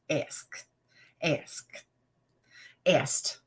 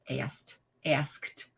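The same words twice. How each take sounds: First: "asked" whispered three times as "ask", "ask", "ast". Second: "asked" said as "ast", then "askt", softer; says asked. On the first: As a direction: breathe "asked" with no voice, again and again. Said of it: "That's how I say it". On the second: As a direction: tries the word "asked" twice, softly, stumbling on the final sound. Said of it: "I can't say asked". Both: Shown as a demonstration.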